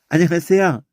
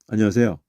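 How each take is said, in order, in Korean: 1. 인사가 따뜻하고, 웃으면서 하고 있어요. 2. 인사가 무뚝뚝하고, 웃지 않고 있어요. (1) "이래야지" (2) "이러면 그, 그 새끼 만나면 인사받고도 기분이 나빠"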